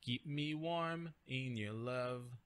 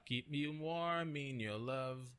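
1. 'Warm' e 'in' são falados separadamente. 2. 'Warm' e 'in' são ligados juntos. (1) "Ele não vai conectar o warm in" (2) "Você poderia também"

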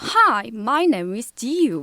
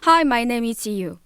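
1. 생동감 있는 원어민 같은 영어 억양으로 읽어요. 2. 평평한 한국식 억양으로 읽어요. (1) "그 원어민들이 갖고 있는 그 특유의 억양" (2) "좀 국어처럼 읽는 게 있었잖아요"

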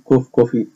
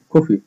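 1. صوت الـ f مكرر ومتمدد. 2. صوت الـ f مفرد وقصير. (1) "مش هقول كوف كوفي" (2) "نطقتها إيه F واحدة"

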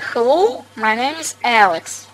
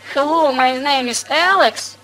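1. В конце голос понижается. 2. В конце голос повышается. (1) "Тон вниз" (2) "Он за себя не знает точно"

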